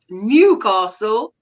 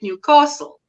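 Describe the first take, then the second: First: The stress falls on the new part. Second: The stress falls on the castle part. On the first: This is how outsiders say it. "some people prefer to overpronounce the new" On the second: This is how locals say it. "as it said locally, you overpronounce the castle section"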